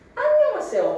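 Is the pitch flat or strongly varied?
strongly varied. The pitch swings strongly up and down.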